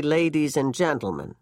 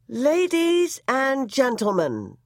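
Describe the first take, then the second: First: Said in the usual way. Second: Ballerina reading bulletin. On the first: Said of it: "the announcer tried to say". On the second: A narrator's reading. Ballerina reading the news bulletin, melodic and slow. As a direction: read it out as a lovely stately melody. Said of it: "a warm, luminous, timeless melody".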